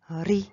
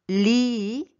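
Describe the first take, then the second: First: The syllable starts with a tapped R sound. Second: The syllable starts with a clear L sound. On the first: The speaker calls it right. "en coréen ça devient ri" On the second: The speaker calls it wrong. "ce n'est pas li"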